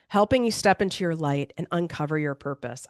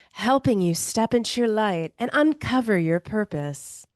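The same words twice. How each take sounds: First: It is said in her own natural voice. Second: It is said in a put-on influencer character voice.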